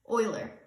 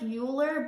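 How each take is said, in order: First: The first syllable sounds like 'oil'. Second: The first syllable does not sound like 'oil'. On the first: The speaker calls it right. "you pronounce it pronounced like oil" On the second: The speaker calls it wrong. "It looks like Euler"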